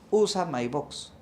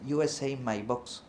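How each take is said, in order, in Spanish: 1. El nombre se dice con pronunciación española. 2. El nombre se dice con pronunciación del inglés americano. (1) "si tú lo hablas en español, dices" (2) "un gringo le dice"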